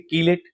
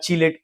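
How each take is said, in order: First: The word begins with a k sound. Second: The word begins with a ch sound. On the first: The speaker calls it wrong. "यहाँ कीलेट नहीं पढ़ते हैं" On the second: The speaker calls it right. "चीलेट पढ़ते हैं।"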